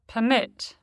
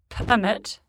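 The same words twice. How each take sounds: First: The stress is on the second syllable. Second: The stress is on the first syllable. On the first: It is a verb. "the corresponding verb is stressed on the stem" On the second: It is a noun or adjective. "Many nouns and adjectives are stressed on the prefix"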